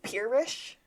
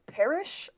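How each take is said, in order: First: "peerish" with a long ee, like pier; "peerish", first syllable PEER, said slowly; "peerish" pronunciation. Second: "perish" with a short e, like pear; "perish", first vowel as in bed; "perish" pronunciation. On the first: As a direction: say "peerish" as pier plus ish. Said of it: "I wrote peerish". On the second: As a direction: say "perish" to rhyme with cherish. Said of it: "I read perish". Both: Shown as a demonstration.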